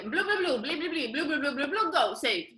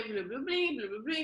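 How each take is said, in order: First: Higher, hammed-up fake French babble; mock French gibberish. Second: Said in the usual way. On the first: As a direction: imitate the chef rattling off French names. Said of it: "so they're like". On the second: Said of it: "not a very French accent".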